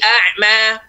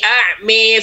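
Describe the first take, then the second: First: The final vowel is a clear open 'a'. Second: The final vowel leans toward an 'e' sound. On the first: It follows the dialect of the Quraysh. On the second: It follows the dialect of the people of Najd.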